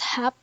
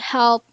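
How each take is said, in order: First: The l sound is dropped before the p. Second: The l sound is pronounced before the p.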